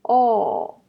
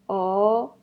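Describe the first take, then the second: First: The pitch falls sharply from high to low. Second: The pitch rises from middle to high.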